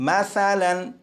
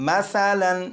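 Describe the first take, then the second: The two takes are said the same way.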